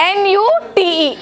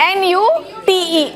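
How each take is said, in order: The two takes are said the same way.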